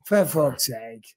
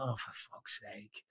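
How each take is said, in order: First: Said in the usual way. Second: Nearly whispered, soft and slow; barely voiced grumble; exasperated mutter. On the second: Real, not acted. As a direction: mutter it under your breath, fed up. Annoyed groan at himself.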